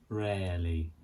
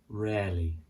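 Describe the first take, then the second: No difference in how they are said.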